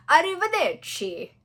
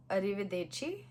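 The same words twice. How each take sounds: First: Arrivederci sung out high and loud, Italian ch and rolled vowels; Duolingo way. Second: Arrivederci said flat as English letters read it. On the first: Retold or imitated. Copying the Duolingo voice, big Italian Arrivederci. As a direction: belt Arrivederci like the app's voice. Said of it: "Duolingo goes like". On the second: Shown as a demonstration. Learner reading arrivederci off the screen like English. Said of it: "but Duolingo goes like".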